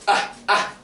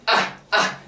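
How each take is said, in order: No difference in how they are said.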